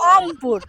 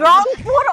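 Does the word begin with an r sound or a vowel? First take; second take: vowel; r sound. First: The word begins with a vowel, without r. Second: The word begins with a clear r sound. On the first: The speaker calls it wrong. "ওরা বলে অমপুর" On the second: The speaker calls it right. "রংপুর জীবনেও বলতে পারে না"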